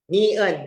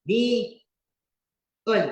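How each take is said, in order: First: Ni-un clipped short and a bit louder; Ni-un repeated short and firm; quick repeat. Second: Ni-un stretched slow and lifted, each syllable held; Ni-un said long and careful, slightly higher; drawn-out name. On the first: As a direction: snap Ni-un back once, brisk. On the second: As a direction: draw out Ni-un slowly like teaching a name. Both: Shown as a demonstration. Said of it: "Yan yung pangalan".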